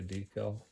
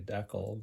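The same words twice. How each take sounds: First: Decal is said the American way. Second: Decal is said the Canadian way.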